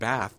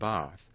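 First: The vowel matches the vowel in trap. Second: The vowel is a long, open ah. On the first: The speaker makes no distinction between the two word groups. "Even as I'm pronouncing it now, I'm saying trap and bath" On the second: The two word groups are kept distinct. "rather than trap and bath"

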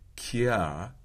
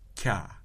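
First: A back velar k followed by a y glide. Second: A single palatal stop made with the tongue body. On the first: The speaker calls it wrong. "So it's not kya" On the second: The speaker calls it right. "but kya"

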